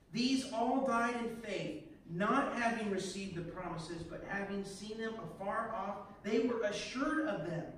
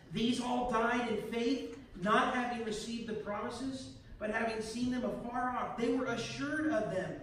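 Both takes have the same delivery.

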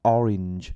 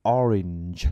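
No difference in how they are said.

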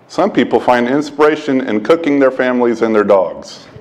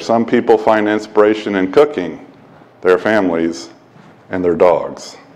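First: It runs straight on with no pause after cooking. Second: There is a short pause after cooking. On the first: Families and dogs are what gets cooked. The speaker calls it wrong. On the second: Cooking, family and dogs are separate inspirations. The speaker calls it right.

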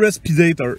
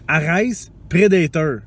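First: The two words are run together into one. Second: The two words are said separately and clearly. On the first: The speaker calls it wrong. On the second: The speaker calls it right.

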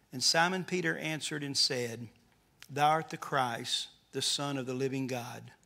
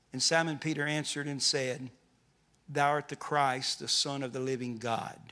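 No difference in how they are said.

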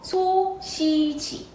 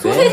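First: The second syllable has an 'i' vowel. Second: The second syllable has an 'e' vowel. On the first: The speaker calls it right. "아니고 소시지" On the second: The speaker calls it wrong. "소세지 아니고"

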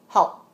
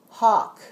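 First: The word ends with a glottal stop. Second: The final k sound is clearly released. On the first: The speaker calls it wrong. "in Vietnamese, the glottal stop" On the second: The speaker calls it right. "we feel the k"

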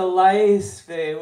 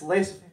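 First: The first vowel is drawn out. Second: The first vowel is short and quick. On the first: "with the eye kind of drawn out" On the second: "there's a speed version of it"

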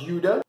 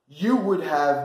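First: Would have shrinks to a short da sound. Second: Would have is said in full.

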